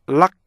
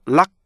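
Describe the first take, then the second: The two takes are said the same way.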